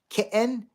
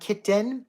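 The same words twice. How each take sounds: First: The T is replaced by a glottal stop. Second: The T is made with the tongue. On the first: "like with a glottal stop" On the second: "the kitten is done with our tongue"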